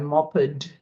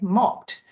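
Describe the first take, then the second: First: The ending is said as a separate syllable. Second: The ending is a single t sound. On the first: The speaker calls it wrong. "we don't anymore say I mopped the floor" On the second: The speaker calls it right. "because it's easier to say mopped"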